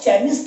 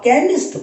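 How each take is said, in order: First: The word begins with a 'ch' sound. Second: The word begins with a 'k' sound. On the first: The speaker calls it wrong. "इसे आप केमिस्ट नहीं पढ़ते हो" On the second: The speaker calls it right. "आप केमिस्ट पढ़ते हो"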